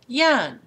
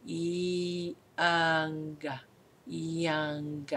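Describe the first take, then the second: First: Put-on young said louder and higher; emphatic repeat. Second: Put-on slow, much softer young; hushed model of the word. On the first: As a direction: punch the word young. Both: Shown as a demonstration. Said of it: "the next word is young".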